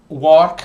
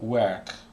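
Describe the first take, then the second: First: The vowel sounds like the one in 'walk'. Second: The vowel sounds like the one in 'bird'. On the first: The speaker calls it wrong. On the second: The speaker calls it right.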